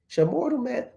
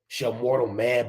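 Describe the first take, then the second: First: It is said in a light, gentle voice. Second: It is said in a deep, heavy voice. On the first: An innocent, angelic being is speaking. The speaker calls it wrong. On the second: A threatening demon is speaking. The speaker calls it right. "this demon had a deep voice"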